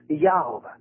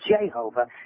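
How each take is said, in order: First: The name begins with a Y sound. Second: The name begins with a J sound. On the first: This is the original form of the name. The speaker calls it right. "It was Jehovah" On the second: This is the later mistranslated form of the name. The speaker calls it wrong. "There was no J's in the 1611 Bible, so there was no Jehovah"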